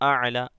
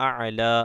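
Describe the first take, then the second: No difference in how they are said.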